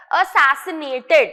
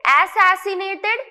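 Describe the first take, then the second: First: "assassinated" begun with a short "uh": uh-SAS-i-nay-ted; slow, emphatic "assassinated" with a weak first vowel; correct pronunciation. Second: "Assassinated" begun with a full "ass": ASS-ass-i-nay-ted; slow "Assassinated" with an open "a" at the start; wrong pronunciation. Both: Shown as a demonstration. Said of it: "is a wrong pronunciation".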